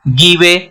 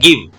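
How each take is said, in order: First: The final e is pronounced as a vowel. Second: The final e is not pronounced. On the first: The speaker calls it wrong. "अगर ये हम ई का pronunciation करेंगे ... गलत pronunciation हो जाएगा" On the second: The speaker calls it right. "इसका ई का प्रोनाउंसिएशन नहीं कर रहे हैं।"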